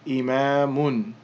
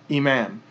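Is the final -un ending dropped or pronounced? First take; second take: pronounced; dropped. First: The word ends with a final -un sound. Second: The word ends with a bare -m sound. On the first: This is the full form with the case ending. "a mim with 2 dhammas, so that would be imamun" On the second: This is the pausal form at the end of a phrase. "we generally won't pronounce it if it's the end of a word or a phrase"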